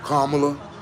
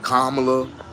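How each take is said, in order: First: The name is said with a mangled pronunciation. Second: The name is said with a mangled pronunciation.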